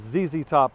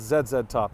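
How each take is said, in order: First: Z is said as 'zee', the American way. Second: Z is said as 'zed', the Canadian way.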